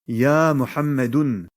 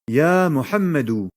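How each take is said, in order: First: The name ends with an n sound. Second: The name ends on a plain vowel. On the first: The speaker calls it wrong. "et non pas" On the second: The speaker calls it right. "il perd le tanwin"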